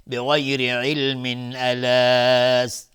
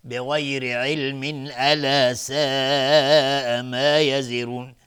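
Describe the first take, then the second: First: بغیر علم joined into الا with tanvin as ilmin, slow; slow flowing link from علم into الا; joined reading. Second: بغیر علم الا ساء slow with tanvin sounded as ilmin and a long madd; joined reading. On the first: (وصل علم به الا با تنوین) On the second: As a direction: draw out the madd in ساء while linking. (وصل کامل با مد در ساء) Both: Shown as a demonstration. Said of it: "اگر عبور کردیم".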